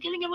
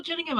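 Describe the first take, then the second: First: Gillingham with a hard G, as in gill. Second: Gillingham with a soft G, like Jillingham. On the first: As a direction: say Gillingham starting with a hard "guh" sound. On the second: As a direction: say Gillingham starting with a "j" sound. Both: Shown as a demonstration. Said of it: "Is it Gillingham or Gillingham".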